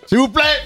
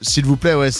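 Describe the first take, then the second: First: The phrase is shouted loudly. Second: The phrase is said calmly without shouting. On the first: "Ils hurlent comme ça" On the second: "ils hurlent pas"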